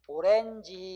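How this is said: The word is said with Korean loanword vowels. This is the customary Korean form. "우리는 이거 뭐라고 그래 그냥?"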